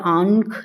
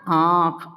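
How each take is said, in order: First: A separate nasal consonant follows the vowel. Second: The nasal sound blends into the vowel itself. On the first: The speaker calls it wrong. "आंख या आंख नहीं आ रही है" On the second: The speaker calls it right. "अ के ऊपर ही ये आवाज आ रही है चंद्र बिंदु"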